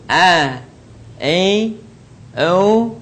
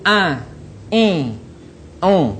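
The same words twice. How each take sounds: First: A, E, O squeezed from mid-throat, drawn out; throat ain, not nasal. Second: A, I, O pushed out through the nose; wrong nasalised A, I, O; nasal ain. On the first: Teacher repeats the correct letter, throat-made A, E, O. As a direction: keep A, E, O out of the nose. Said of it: "Tidak ada yang keluar suaranya dari rongga hidung". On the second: Teacher shows what to avoid, nasal A, I, O. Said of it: "keluar dari rongga hidung". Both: Shown as a demonstration.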